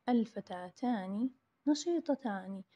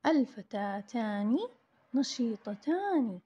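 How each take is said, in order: First: Said in the usual way. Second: Each word drawn out slowly for the class; slow dictation. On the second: Shown as a demonstration.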